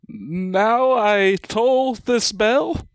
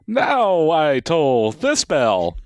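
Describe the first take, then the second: First: It is said as a question. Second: It is said as a statement.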